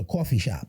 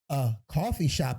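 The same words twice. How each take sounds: First: It is said in a local New York accent. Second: It is said in a general American accent.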